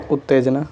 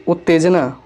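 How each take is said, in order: First: उत्तेजना with a doubled t, "ut-tejna"; correct form. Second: उत्तेजना with a single t, "utejna"; incorrect form. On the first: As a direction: hold the t long in उत्तेजना. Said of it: "इधर शुद्ध रूप है". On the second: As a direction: shorten the t in उत्तेजना. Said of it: "इधर हमारा अशुद्ध". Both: Shown as a demonstration.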